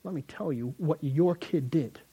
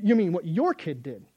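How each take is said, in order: First: "your" stressed, slow and pointed; mom accusing. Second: "your" hit harder and louder, thrown back; dad retorting. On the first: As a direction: lean on "your" as if blaming dad. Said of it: "and mom says". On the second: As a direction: punch "your" back at mom. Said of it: "dad ... go". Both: Retold or imitated.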